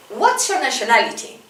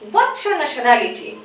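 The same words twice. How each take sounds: The two takes are said the same way.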